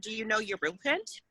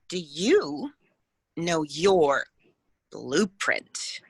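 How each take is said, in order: First: The question runs on with no framing pauses. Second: The question is framed by pauses before and after. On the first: The question is passed over as ordinary. "Do you see how that's different than" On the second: The question is given weight and importance. "the pause before and after an important phrase or an important question is very, very powerful"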